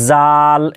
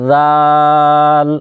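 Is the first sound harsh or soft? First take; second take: harsh; soft. First: The first sound is a harsh j sound. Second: The first sound is soft and gentle. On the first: The speaker calls it wrong. "আওয়াজ করে দিই এভাবে জাল" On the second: The speaker calls it right. "নরম আওয়াজে করবেন এভাবে জাল"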